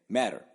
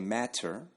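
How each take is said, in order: First: The middle t is a soft d-like flap. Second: The middle t is pronounced as a crisp t. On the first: The speaker calls it right. "We just say matter, right, in American English" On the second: The speaker calls it wrong. "I don't say matter"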